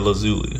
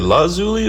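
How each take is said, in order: First: The A vowel is pronounced low. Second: The A vowel is pronounced high. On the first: "low A" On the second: "high A"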